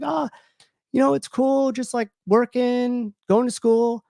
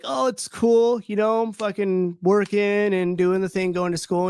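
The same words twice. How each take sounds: First: High, bright put-on casual voice; fake cheerful. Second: High put-on casual voice, slowed; fake cheerful. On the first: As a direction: brush it off with forced breeziness. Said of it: "and I was like". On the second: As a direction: shrug it off with forced breeziness. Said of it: "And I'm like".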